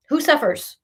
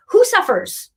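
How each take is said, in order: First: Said in the usual way. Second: Higher and pressed hard; emphatic question. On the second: Real, not acted. Reader pressing the client on who suffers, emphatic and high. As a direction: hit it as the big rhetorical question. Rhetorical question, repeated louder.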